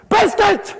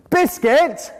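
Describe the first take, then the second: First: High, loud shouted demand; shouted drill. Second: Louder, higher insistent correction; loud drill. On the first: Parent yelling the word at a child, loudly insistent. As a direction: yell it at the child. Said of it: "I've just deafened Alan". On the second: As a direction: bark the word at the child. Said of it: "demo of drilling". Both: Shown as a demonstration.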